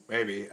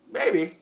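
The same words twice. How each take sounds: First: Said in the usual way. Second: Surprised maybe. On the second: Shown as a demonstration.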